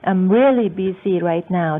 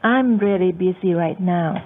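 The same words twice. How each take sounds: First: The stress falls on the word really. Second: The stress falls on the word I'm. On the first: Don't bother me. "ถ้าเน้นที่ really" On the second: Someone else can help you. "แต่ถ้าเน้นที่ตัวแรก"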